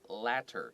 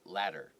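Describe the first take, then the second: First: The middle consonant is a clear T sound. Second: The middle consonant sounds like a quick D.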